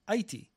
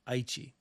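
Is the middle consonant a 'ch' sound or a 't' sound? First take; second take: t; ch. First: The middle consonant is a plain 't' sound. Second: The middle consonant is a 'ch' sound. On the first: This is how the older spelling reads to an English speaker. The speaker calls it wrong. "I, as a native English speaker, would say Aichi. That's what I would read if I saw that on paper" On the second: This is closer to how Japanese speakers say it. The speaker calls it right. "which is more phonetically similar to what the Japanese say"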